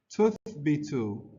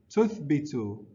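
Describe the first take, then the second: Both takes have the same delivery.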